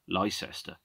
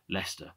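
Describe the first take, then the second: First: The name is sounded out following every letter. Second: The name is said in its usual short form.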